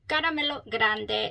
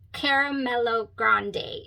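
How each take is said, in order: First: The name is said with foreign-sounding vowels and consonants. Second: The name is said with simplified, anglicized vowels and consonants. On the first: This is the proper pronunciation. "is how you say it" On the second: This is an easier fallback pronunciation. "you could say it Caramello Grande if you can't pronounce"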